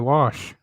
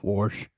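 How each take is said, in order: First: It is said without an R sound. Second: It is said with an R, like warsh.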